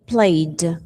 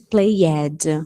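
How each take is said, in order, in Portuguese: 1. O final é pronunciado só como o som de d. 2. O final é pronunciado como uma sílaba extra 'ed'. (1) "É o D só" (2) "Nada de played. Esquece esse ed"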